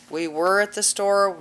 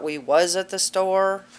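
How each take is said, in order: First: "We were at the store" said correctly, with WERE; proper English. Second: "we was at the store" said slowly as the wrong example, with WAS; wrong grammar example. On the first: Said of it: "Use proper English". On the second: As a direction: say "was" slowly, as a mistake to avoid. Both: Shown as a demonstration.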